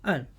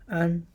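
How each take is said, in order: First: The pitch falls sharply from high to low. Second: The pitch stays high and level.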